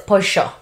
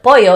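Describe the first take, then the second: First: The double L sounds like sh. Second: The double L is not an sh sound.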